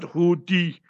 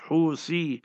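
First: The middle consonant is a plain t sound. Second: The middle consonant is a th sound. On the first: The speaker calls it wrong. "not Huti" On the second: The speaker calls it right. "the term is Husi"

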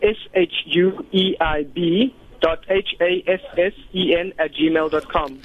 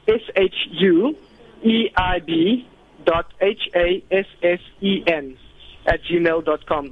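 First: It is spelled out fast. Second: It is spelled out slowly.

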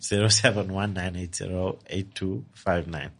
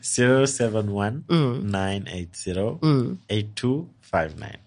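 First: The number is said fast. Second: The number is said slowly.

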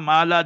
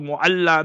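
First: The name is shortened to two syllables. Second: The name is said in full, three syllables. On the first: The speaker calls it wrong. "you pronounce it upside down" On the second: The speaker calls it right. "It's Mu'alla"

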